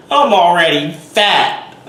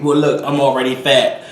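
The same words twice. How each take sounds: First: Loud, high, drawn-out repeat; mock exasperated yell. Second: Mock comeback in a put-on voice; mock retort. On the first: Vlogger shouting back at imagined critics, mock exasperated yell. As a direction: yell the comeback slowly, pitched up. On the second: Vlogger answering imagined critical viewers, mock defensive retort. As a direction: answer back to the scolders, not yet shouting.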